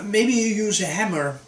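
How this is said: It is said as a mild suggestion. It is only a suggestion. "Pronounce it like this. It's it's just an advice"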